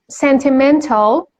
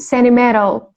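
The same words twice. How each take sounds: First: The t sounds are pronounced clearly. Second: The t sounds are softened and barely heard.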